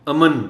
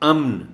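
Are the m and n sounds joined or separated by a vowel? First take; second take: separated; joined. First: A vowel separates the m and n. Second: The m and n are joined directly. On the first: The speaker calls it wrong. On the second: The speaker calls it right.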